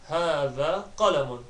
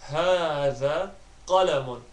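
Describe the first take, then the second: First: The phrase is spoken at normal fast speed. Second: The phrase is spoken slowly and deliberately. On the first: "finally I'll say it fast, so well at the average speed" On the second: "I'll try and say the Arabic slowly on the first two attempts"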